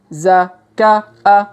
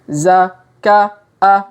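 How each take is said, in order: No difference in how they are said.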